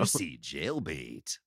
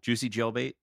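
First: It is said in a deep, dramatic announcer voice. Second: It is said in a plain, ordinary speaking voice. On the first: The speaker calls it right. "I'm doing it in the Halo voice now" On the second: The speaker calls it wrong. "I should just read them normal"

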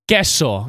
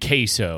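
First: It is said with a Spanish pronunciation. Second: It is said with an American English pronunciation. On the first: The speaker switches languages for one word. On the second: The speaker stays in their own language.

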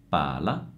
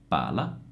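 No difference in how they are said.

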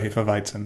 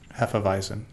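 First: It is said the German-style way. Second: It is said the typical American way. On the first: The speaker calls it right. "I've been trying to be very cognizant to say Haifa, and also Hefeweizen" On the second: The speaker calls it wrong. "which is the typical American pronunciation of that"

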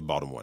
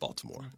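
First: The name is said in the local accent. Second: The name is said in a standard accent. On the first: This is how people from the city say it. The speaker calls it right. "they say Baltimore" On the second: This is how the city's own people do not say it. The speaker calls it wrong. "not Baltimore"

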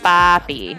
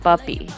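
First: The word has a long open 'ah' first vowel. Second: The word sounds close to 'buppy', with an 'uh' vowel. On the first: This is how non-Caribbean speakers say it. "for me, it's, like, Papi" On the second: This is how some Caribbean speakers say it. "like Caribbean versus not Caribbean, where people say, like, it almost sounds a little bit like Buppy"

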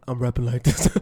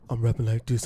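First: It is said lively, with more energy. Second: It is said flat, with little energy.

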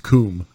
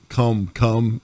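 First: The vowel is a long 'oo' sound. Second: The vowel is a short 'uh' sound. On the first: The speaker calls it right. "It's coom" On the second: The speaker calls it wrong. "I don't call cum"

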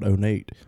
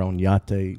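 First: The name is pronounced in a casual way. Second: The name is pronounced in a careful way. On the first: The speaker calls it wrong. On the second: The speaker calls it right.

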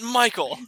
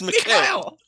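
First: The name is said as English Michael. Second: The name is said as Mikhail. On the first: The speaker calls it wrong. "It's not Michael" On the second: The speaker calls it right. "no one says it right"

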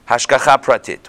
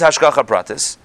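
First: The last word ends with a t sound. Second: The last word ends with an s sound.

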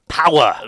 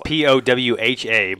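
First: The name is said at a fast pace. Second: The name is said at a slow pace.

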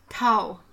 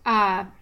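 First: The word ends with a W sound. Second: The word ends with a V sound.

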